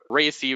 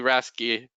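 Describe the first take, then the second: First: It is said like 'racy', with no k sound. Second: It is said like 'rasky', with a k sound. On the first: "I hear people announce it Racy" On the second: "some people announce it Rasky"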